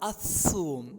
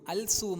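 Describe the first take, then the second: First: No 'l'; the s is doubled instead. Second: A clear 'l' is said before the s. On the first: The speaker calls it right. "സാക്ക് ഷദ് കൊടുക്കണം" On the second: The speaker calls it wrong. "അൽ സൂം അല്ല"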